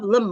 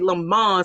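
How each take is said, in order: First: The word is said in an ordinary way. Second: The word is said in a fancy-sounding way.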